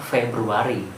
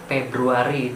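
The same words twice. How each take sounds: First: The word begins with an 'f' sound. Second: The word begins with a 'p' sound. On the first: The speaker calls it right. "bakunya adalah Februari" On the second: The speaker calls it wrong. "itu tidak baku"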